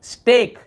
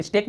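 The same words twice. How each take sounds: First: स्टेक high and loud, vowel held long; drawn-out vowel. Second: स्टेक with a short, quick "e"; too-short vowel. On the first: Teacher modelling the long sound for students, drawn-out स्टेक. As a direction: stretch the "ay" in स्टेक firmly. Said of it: "यहाँ पर भी लंबा खींचे". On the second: Teacher showing students what to avoid, short स्टेक. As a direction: say स्टेक without holding the vowel. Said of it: "स्टेक नहीं बोल रहे". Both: Shown as a demonstration.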